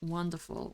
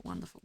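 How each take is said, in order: First: Dry wonderful. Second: Muttered wonderful. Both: Real, not acted.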